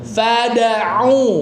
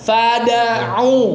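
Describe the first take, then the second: No difference in how they are said.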